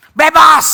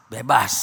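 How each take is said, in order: First: Bebas called out loud and triumphant; loud exclamation. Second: Bebas dropped very low and soft, like an afterthought; quiet echo. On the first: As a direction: proclaim Bebas loudly to the crowd. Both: Acted. Preacher repeats word contrastively.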